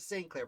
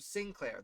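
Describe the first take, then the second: First: The name begins with a full 'saint' sound. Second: The name begins with a short 'sin' sound. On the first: The speaker calls it wrong. "I've always defaulted to Saint Clair" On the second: The speaker calls it right. "Okay, so Sinclair"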